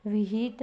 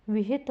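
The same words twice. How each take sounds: First: विहित said as "viheet"; wrong long vowel. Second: Said in the usual way. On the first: Shown as a demonstration. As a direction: stretch "hee" in विहित. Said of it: "विहित नहीं होता". (विहित में "ही" लंबा करके) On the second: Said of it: "विहित होता है".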